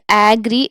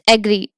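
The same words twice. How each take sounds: First: The first vowel is a full, long sound. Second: The first vowel is a very short sound. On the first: The speaker calls it wrong. "it's not agree" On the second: The speaker calls it right. "this we are pronouncing very short"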